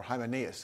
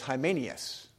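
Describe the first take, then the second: First: Hymenaeus in an alternative pronunciation, softer and lower. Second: Hymenaeus in its first pronunciation. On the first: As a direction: offer another way to say Hymenaeus, quietly. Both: Shown as a demonstration. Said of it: "however you want to say it".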